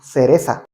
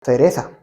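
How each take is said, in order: Both takes have the same delivery.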